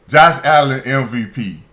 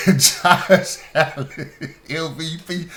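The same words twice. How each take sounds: First: Loud flat scoff, name thrown out in disbelief; incredulous. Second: Laughing through it, slow and higher; can't get it out without cracking up. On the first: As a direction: say it like it's a joke you can't believe. Scoffing at Allen MVP claim. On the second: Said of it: "You can't even say it with a straight face". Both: Real, not acted.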